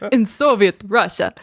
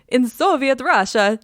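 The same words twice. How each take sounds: First: It is said in an attempted Russian accent. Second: It is said in a put-on Italian accent. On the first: "you were supposed to be doing a Russian accent. Okay, here we go" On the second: "That's the only accent I know how to do"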